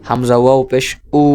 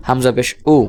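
First: Long, held final উ; elongated vowel. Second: Said in the usual way. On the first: Shown as a demonstration. Teacher repeating the madd example, উ held long. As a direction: stretch out the closing উ. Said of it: "মদের সাথে টেনে উচ্চারণ করেন". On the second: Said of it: "এটা স্বাভাবিক উচ্চারণ হরকতের".

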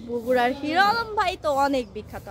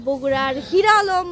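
First: Said in the usual way. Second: বগুড়ার hero Alam drawn out slowly and much louder, hero punched; slow, loud, proud punchline naming hero Alam; proud reveal. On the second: Real, not acted. Vlogger proudly names Bogura's famous hero, slow and loud.

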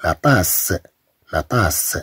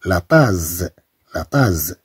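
First: لا طاس with a clear hissed s; لا طاس with s not z; correct s pronunciation. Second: لا طاز with a voiced z; لا طاز with z instead of s; wrong z pronunciation. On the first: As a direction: say لا طاس with a sharp s. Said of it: "إذا نقول". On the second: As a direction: say لا طاز buzzing the z. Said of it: "ستنطق الكلمة". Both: Shown as a demonstration.

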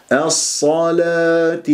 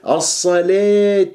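First: Slow الصلاة with heavy ص, thin لا; Hafs light lam. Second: الصلاة with لا tilted toward lee or lay; over-thinned lam. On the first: Teacher models the Hafs reading, slow light-lam الصلاة. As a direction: recite الصلاة drawn out, keeping ل light. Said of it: "نقرأ الآن برواية حفص". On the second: Teacher imitates a wrong sound, over-thinned الصلاة. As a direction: overdo the lightness of لا in الصلاة. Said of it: "ولا نقول الصلاة". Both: Shown as a demonstration.

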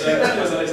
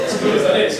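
First: Said in the usual way. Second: Laughing. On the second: Real, not acted.

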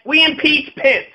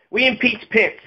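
First: Higher and slow, every word landed; emphatic declaration. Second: Said in the usual way. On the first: Shown as a demonstration. Ranter telling listeners the answer if Pence bombs, higher and slow. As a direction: announce it as the obvious fix.

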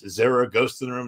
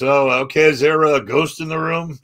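First: Said in the usual way. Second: Louder, higher mock-polite question; eye-rolling skepticism. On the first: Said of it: "It goes". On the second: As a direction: ask it as a skeptic humoring believers. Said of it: "I'm kinda rolling my eyes".

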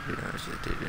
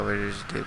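First: Unvoiced whispered repeat; hushed whisper while hunting. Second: Said in the usual way. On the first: Real, not acted. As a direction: whisper it, sneaking up on him. Creeping up on hiding enemy.

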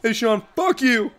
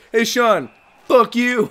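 First: Slower, higher mock taunt; slow cheeky mock insult; impression of Kyle. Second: Raised, louder mock taunt; cheeky mock insult, higher pitched; impression of Kyle. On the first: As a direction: drawl the insult like Kyle would. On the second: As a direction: jab at Sean in a buddy's voice. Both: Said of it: "That's not how Kyle sounds".

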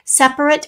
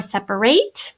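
First: "Separate" as SEP-rit, the adjective; reduced ending. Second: "separate" as SEP-uh-RATE, the verb; full ending. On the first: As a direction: say "Separate" with a short, weak last syllable. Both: Shown as a demonstration. Shows two pronunciations of one spelling.

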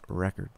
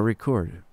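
First: "Record" said as RECK-erd; noun-style pronunciation. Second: "Record" said as ri-CORD; verb-style pronunciation. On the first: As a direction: stress the first syllable of "Record", short second one. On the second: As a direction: stress the second syllable of "Record". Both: Shown as a demonstration. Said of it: "depending on how you pronounce it".

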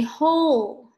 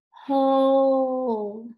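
First: Said in the usual way. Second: HOLE stretched long and loud; drawn-out slow. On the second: Shown as a demonstration. Teacher showing pupils the middle sound, drawn-out slow HOLE. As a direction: hold the O in HOLE on a steady note. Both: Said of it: "Can you say that slowly".

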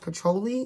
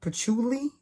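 First: Patchouli said with an OH middle, like puh-TOH-lee; tentative pronunciation. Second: Patchouli said with an OO middle, like puh-TOO-lee, higher and questioning; alternative pronunciation. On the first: Vlogger guessing at a candle scent's name, patchouli as puh-TOH-lee. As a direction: say patchouli with a long O in the second syllable. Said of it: "I think it's pronounced".

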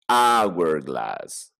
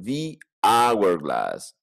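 First: Said in the usual way. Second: "The hourglass" very slow, "the" as thee, no h; silent h hourglass. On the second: Shown as a demonstration. Teacher shows the class the other pronunciation, slowly. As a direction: stretch out "The hourglass" starting on the vowel. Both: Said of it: "tiene otra pronunciación".

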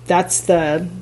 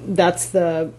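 The two takes are said the same way.

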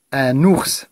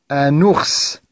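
First: Said in the usual way. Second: "ours" with a long final s; stressed S sound. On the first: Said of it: "Je reprends la lecture". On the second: Shown as a demonstration. Teacher helping pupils find the repeated sound, "ours" with s held. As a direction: hold the s at the end of "ours". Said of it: "chercher le son qui se répète".

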